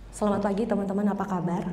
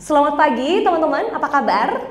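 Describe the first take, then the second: First: The greeting is said flatly, with little energy. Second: The greeting is said brightly, with lively energy. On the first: Listeners would ignore it. The speaker calls it wrong. "Tipe audio yang pertama diabaikan" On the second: Listeners would want to answer. The speaker calls it right. "Mana yang bikin orang tertarik buat jawab? Tipe audio yang kedua"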